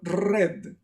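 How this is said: The R is rolled with the tongue tip. The speaker calls it wrong. "The red color is very Spanish"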